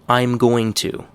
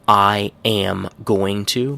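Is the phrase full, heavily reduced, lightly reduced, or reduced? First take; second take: lightly reduced; full. First: I am is contracted; going to stays full. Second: Every word is pronounced fully and separately.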